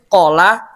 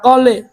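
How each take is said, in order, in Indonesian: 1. Vokalnya bunyi 'a' yang terbuka. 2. Vokalnya condong ke 'o' dan 'e'.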